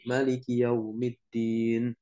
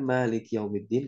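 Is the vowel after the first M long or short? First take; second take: short; long. First: The vowel after the first M is short. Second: The vowel after the first M is long. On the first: "tanpa harokat panjang" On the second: "yang kita baca ini mengikuti riwayat dari Imam Hafiz An Asim"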